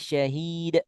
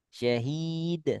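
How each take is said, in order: First: The final d is released too hard, like a glottal stop. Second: The final d is released without any pressure. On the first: "Yang nggak boleh, ... Ini jadi ada hamzah sukun" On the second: "kalau nggak neken"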